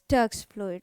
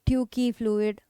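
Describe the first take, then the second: First: The first word has one syllable. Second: The first word has two syllables. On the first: The speaker calls it right. "it is Turk's fluid" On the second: The speaker calls it wrong. "You should not pronounce it as Turkey fluid"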